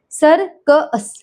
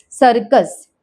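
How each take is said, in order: First: सर, क, अस in separate pieces; sounded out. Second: Said in the usual way. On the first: Shown as a demonstration. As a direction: break it up, schwa isolated in अस. (सर, क, अस अलग-अलग करके) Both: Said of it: "शवा sound यानी अह sound".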